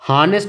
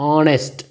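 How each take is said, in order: First: The word begins with an audible h sound. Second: The word begins directly with a vowel sound. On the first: The speaker calls it wrong. "Suppose ನಾವು ಹಾನೆಸ್ಟ್ ಅಂತಿದ್ದು ಅಂದ್ಕೊಳ್ಳಿ" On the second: The speaker calls it right. "ನಾವೇನಂತ pronounce ಮಾಡ್ತೀವಿ"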